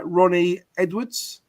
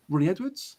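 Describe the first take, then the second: First: Said in the usual way. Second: Rising, higher, unsure who that is; baffled echo of a name read out; puzzled question. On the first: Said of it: "Edwards from Posh". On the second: Real, not acted. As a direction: ask the name back as if you can't place him. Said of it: "hang on".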